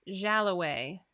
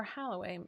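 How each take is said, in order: First: Jalloway drawn out slowly with a J sound at the start; J pronunciation. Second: Halloway with a breathed H in place of the J; H pronunciation. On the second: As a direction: say Halloway, opening on an H sound. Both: Real, not acted. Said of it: "It's a J".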